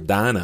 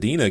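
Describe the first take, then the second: First: The name is said in a Southern US way. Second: The name is said in a Northern US way. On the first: "down here we're going to say Dinah. Because you got back of the throat. You got the guttural Dinah" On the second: "you got the Dina going up in Minnesota"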